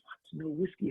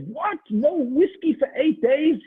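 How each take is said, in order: First: Soft, stunned disbelief; hearing there will be no whiskey, stunned and soft; stunned hush. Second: Much higher and louder, slow and aghast; learning it lasts eight days, shouting in horror; outraged disbelief. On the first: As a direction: barely get the words out. Chaim hears no whiskey. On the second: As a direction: cry out in horror at the news. Chaim shocked, eight days. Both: Acted.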